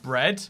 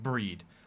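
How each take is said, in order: First: The vowel is short, as in bed. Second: The vowel is long, as in bead.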